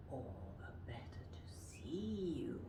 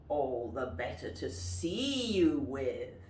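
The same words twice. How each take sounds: First: Hushed, breathy wolf; whispered wolf. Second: Wolf voice. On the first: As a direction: whisper the wolf's line. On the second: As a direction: lower wolf line, full voice. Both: Shown as a demonstration. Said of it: "And the wolf says".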